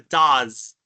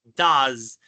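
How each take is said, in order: Both takes have the same delivery.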